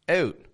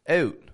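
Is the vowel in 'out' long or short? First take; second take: short; short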